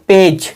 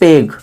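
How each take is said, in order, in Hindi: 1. शब्द का अंत नरम j की आवाज़ से होता है। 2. शब्द का अंत कठोर g की आवाज़ से होता है। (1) "जी को हम क्या पढ़ रहे हैं, जा पढ़ रहे हैं" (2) "जी से गा होता है तो इसका मतलब पेग होगा, पर नहीं"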